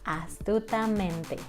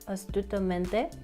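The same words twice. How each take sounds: First: The vowels are said with a wide-open mouth. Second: The vowels are said with a narrow mouth. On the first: The speaker calls it right. "open your mouth a lot" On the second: The speaker calls it wrong.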